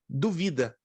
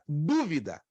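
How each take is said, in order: First: The stress is on the second syllable. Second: The stress is on the first syllable. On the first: "Mas onde é a sílaba tônica? A segunda" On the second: "a sílaba que leva o acento é a tônica"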